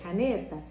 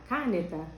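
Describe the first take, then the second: First: The stress is on the middle syllable. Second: The stress is on the first syllable. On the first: The speaker calls it right. "o ne" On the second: The speaker calls it wrong. "o cá"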